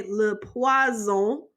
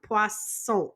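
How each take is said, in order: First: "poison" in French, with a buzzing z in the middle; Z sound. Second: "poisson" with a hissed s in the middle; clear S sound. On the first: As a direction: say "le poison" as luh pwah-ZOH. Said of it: "that means poison". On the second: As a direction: say "poisson" as pwah-SSOH, with s, not z. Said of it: "Make sure you have the s sound". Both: Shown as a demonstration.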